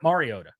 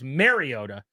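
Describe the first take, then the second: First: The first syllable sounds like 'mar'. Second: The first syllable sounds like 'mare'. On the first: This version does not bother the person named. The speaker calls it right. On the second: This version bothers the person named. The speaker calls it wrong. "What what he is bothered by is"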